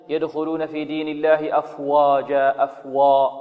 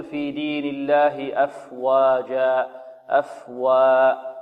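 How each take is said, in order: First: أفواجا with the واو made heavy and emphatic; wrong heavy waw. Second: أفواجا with the واو kept light and thin; correct light waw. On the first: Teacher mimics students' mistake, heavy emphatic waw. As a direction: say أفواجا with a thick, rounded واو. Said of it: "وهذا خطأ". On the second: Teacher shows the correct reading, slow light waw. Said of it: "بل يقول". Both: Shown as a demonstration.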